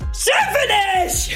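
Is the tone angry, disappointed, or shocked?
angry. It sounds angry and forceful.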